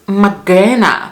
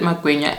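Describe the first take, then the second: First: The middle syllable has a plain 'g' sound. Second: The middle syllable has a 'gw' sound. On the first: This is how the children say the word. The speaker calls it wrong. "I hate the way they pronounce it" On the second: This is the speaker's own home form of the word. The speaker calls it right. "we call it magwinya"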